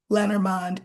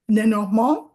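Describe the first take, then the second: First: The name is said with American English pronunciation. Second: The name is said with French pronunciation. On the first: "Lenormand in English" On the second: "Lenormand in French"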